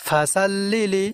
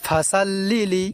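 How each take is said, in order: The two takes are said the same way.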